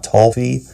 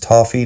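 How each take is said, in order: First: The word has an odd, unusual pronunciation. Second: The word has its common, everyday pronunciation. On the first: The speaker calls it wrong. "not toffee" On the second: The speaker calls it right. "It's toffee"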